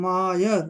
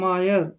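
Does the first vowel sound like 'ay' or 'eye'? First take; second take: eye; eye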